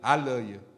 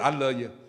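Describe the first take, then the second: No difference in how they are said.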